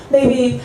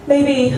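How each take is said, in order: Both takes have the same delivery.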